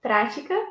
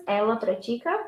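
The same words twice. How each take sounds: First: Prática stressed on open "Prá"; stress on first syllable. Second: Pratica stressed on "ti", rising; stress on second syllable. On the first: Teacher giving the noun, "Prática" stressed on PRÁ. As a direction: say "Prática" as PRA-ti-ca. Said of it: "is the noun". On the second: Teacher giving the verb, "pratica" stressed on TI. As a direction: say "pratica" as pra-TI-ca. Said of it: "Pratica is a verb". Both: Shown as a demonstration.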